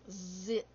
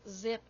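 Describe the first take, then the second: First: The first sound is exaggerated and drawn out. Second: The first sound is said plainly and briefly. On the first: "I really accentuate the sound I want them to hear" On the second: "You can just say zip"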